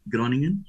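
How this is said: The name is said with Portuguese sounds. This is how people in Portugal say it. "nós em Portugal podemos dizer Groningen"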